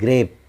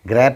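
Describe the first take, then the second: First: The vowel is a long ay sound. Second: The vowel is a short a sound. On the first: The speaker calls it right. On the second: The speaker calls it wrong. "ग्रैप नहीं"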